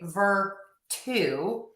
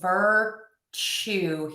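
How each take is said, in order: First: The middle consonant is a plain t sound. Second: The middle consonant is a ch sound. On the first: The speaker calls it wrong. "So I wouldn't say ver-tu" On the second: The speaker calls it right. "we're going to say ch"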